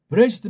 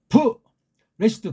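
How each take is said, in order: First: The word is said in one smooth run. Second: There is a pause after the first sound. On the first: "이렇게 나가다 보니까" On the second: "그렇게 발음 안 해요"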